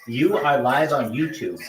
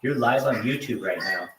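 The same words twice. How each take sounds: First: Each word of "You are live on YouTube" spaced out slowly; slow, emphatic repeat. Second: Said in the usual way. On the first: Real, not acted.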